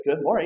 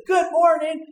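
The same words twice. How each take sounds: First: Said in the usual way. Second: High, loud, huffy repeat of Good morning; offended grumpy. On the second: Acted. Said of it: "in that tone of voice".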